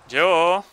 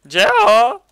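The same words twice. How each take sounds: First: Said in the usual way. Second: High, loud calling out; louder call. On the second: Real, not acted. Calling a friend who won't answer, loud call. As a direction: call out to get his attention.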